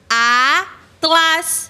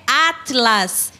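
First: "Atlas" split into a, pause, tlas; "Atlas" with a clear gap before tlas; syllable by syllable. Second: Said in the usual way. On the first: Shown as a demonstration. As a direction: say "Atlas" in two separated chunks. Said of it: "E podemos separar ela assim". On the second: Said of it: "podemos separar ela assim".

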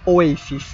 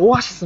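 First: オエシス as in English, o-AY-sis; English-style pronunciation. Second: オアシス with a clear "a", o-a-shi-su; Japanese pronunciation. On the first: Traveller correcting the band name abroad, English-style pronunciation. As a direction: switch to English-sounding オエシス. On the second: Traveller naming a favourite band before correcting themselves, Japanese pronunciation. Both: Retold or imitated. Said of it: "オアシスは日本でオエシスなんて言ったことない".

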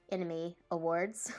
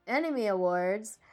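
First: Said in the usual way. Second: "Anime Awards" said slowly, each syllable spelled out; over enunciating. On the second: Shown as a demonstration. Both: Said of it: "Let me say that slowly".

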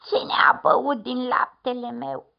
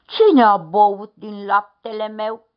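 First: Slightly thinner, whiny middle bear. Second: Loud growling papa bear; booming bear grumble; big bear growl. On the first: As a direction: whimper it a bit as the middle bear. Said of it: "spuse cu o voce mai subțire". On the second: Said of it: "ursul cel mare a mormăit". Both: A narrator's reading.

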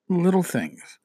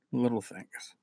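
First: Said in the usual way. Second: Much softer, lower echo; hushed repeat. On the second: Real, not acted. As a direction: let it sink in, very quietly.

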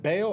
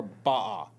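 First: Baal said as one syllable, "bail"; Anglicized pronunciation. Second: Baal said with a broad "ah", like "bah"; alternative pronunciation. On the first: Host checks which pronunciation is correct, Anglicized Baal. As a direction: say Baal to rhyme with "pale". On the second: Host offers the other pronunciation, broad-vowel Baal. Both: Shown as a demonstration. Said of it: "Is it Baal or Baal?".

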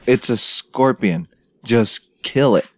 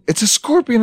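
First: Slow, unfazed matter-of-fact delivery; retold no-big-deal tone; unimpressed retort. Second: High-pitched mock-scared cry; hammed-up squeal of alarm; imitated panic. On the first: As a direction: spell it out slowly to panicking dudes. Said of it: "And I was like". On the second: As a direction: mimic a frightened recruit crying out. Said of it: "And they're like".

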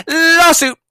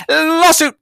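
First: Even louder, higher shout; louder emphatic. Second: Called out loud and high; loud emphatic. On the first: To companies forcing masks, louder emphatic shout. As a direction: drive it home with a bigger shout. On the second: To companies forcing masks, loud emphatic call. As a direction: warn them, loud and sure. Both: Real, not acted.

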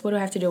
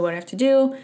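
First: Said in the usual way. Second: Higher, more urgent second ask; anxious repeat. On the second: Retold or imitated. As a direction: press the question again, rattled. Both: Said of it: "going through my checklist".

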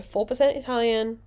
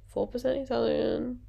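First: Said in the usual way. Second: Softer, put-on Italian accent; mock Italian accent. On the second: Vlogger joking about Instagram bio, mock Italian accent. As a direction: play at an Italian accent, softly. Puts on Italian for her ancestry.

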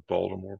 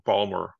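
First: Said in the usual way. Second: "Baltimore" said the local way as "Bawlmer", clipped to two syllables; Baltimore accent. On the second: Shown as a demonstration. Guest showing host his hometown accent on "Baltimore". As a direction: drop the t and the ending, a Bawlmer "Baltimore". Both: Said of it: "a little bit of a Baltimore".

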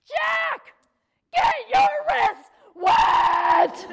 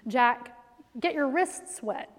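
First: Much higher, very loud and very slow screaming order; a mom screaming at her small son; enraged shout. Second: Put-on slow, calm instruction to a small child; calm mom explaining; patient and practical. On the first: Retold or imitated. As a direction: bellow it from the gut like a furious mom. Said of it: "I had to bend over to get my voice out". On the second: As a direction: keep it patient, still trying to be reasonable. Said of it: "So I was trying to be, like, practical".

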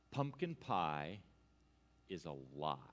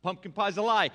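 First: Mock-solemn reveal. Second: Loud, emphatic denunciation; mock-indignant outburst. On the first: Preacher revealing the pie secret to congregation, mock-solemn hush. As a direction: drop the grave truth in a hush, pausing midway. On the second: Preacher denouncing pumpkin pie to congregation, loud mock outrage. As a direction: proclaim the scandal at volume.

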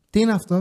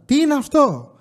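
First: Said in the usual way. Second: Asking again, fed up and louder; the third time, losing patience; pushing the question harder at the wife; exasperated louder repeat. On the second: Retold or imitated. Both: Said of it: "Αλήθεια τώρα".

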